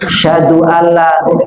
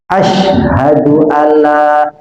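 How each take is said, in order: First: The h sound is swallowed and not heard. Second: The h sound is clearly heard after a break. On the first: The speaker calls it wrong. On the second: The speaker calls it right. "sampai keluar sh"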